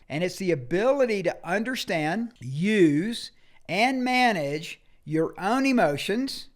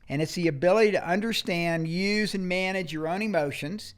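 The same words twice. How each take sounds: First: It is spoken at a slower pace. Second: It is spoken at a faster pace.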